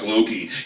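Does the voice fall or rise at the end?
fall. It is said flat, as a plain statement.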